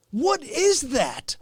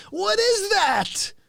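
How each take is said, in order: First: Said in the usual way. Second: High, slow baffled question. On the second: Acted. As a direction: stretch it out in mock confusion.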